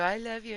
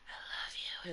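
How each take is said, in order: First: It is said in a normal, clear voice. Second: It is said in a whispery, raspy, tired voice.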